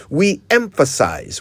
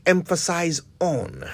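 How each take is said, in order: First: "emphasize" said alone with no "on"; correct usage demo. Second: "emphasize on" said as the common wrong form; "emphasize on" with the "on" tacked on; wrong usage demo. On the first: Usage coach shows the right form to listeners. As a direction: stress the WE in "We emphasize". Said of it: "we don't emphasize on". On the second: Usage coach shows what listeners get wrong. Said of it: "but that is just not right". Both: Shown as a demonstration.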